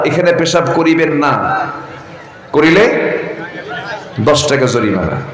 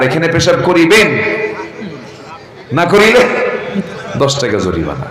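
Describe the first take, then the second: First: The pause comes right after 'না'. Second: The pause comes right before 'না'.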